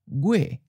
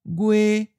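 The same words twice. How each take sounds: First: The pitch starts high and falls. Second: The pitch stays level at a high height. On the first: This is how it sounds in a general southern accent. "in a general southern accent, it may sound almost like a high falling" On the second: This is how it sounds in some other regions. "it may sound like a high flat"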